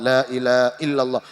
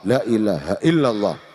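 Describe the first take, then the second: First: The phrase is slurred and the h is dropped. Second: Every sound, including the h, is said clearly. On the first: The speaker calls it wrong. "kan orang yang maca kadang ... muang hak" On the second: The speaker calls it right. "hanya diperjelas"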